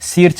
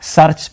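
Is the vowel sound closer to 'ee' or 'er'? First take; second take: ee; er. First: The vowel sounds like 'ee' before the r. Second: The vowel sounds like 'er' before the r. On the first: The speaker calls it wrong. "नहीं" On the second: The speaker calls it right. "सर्च pronounce करते हैं"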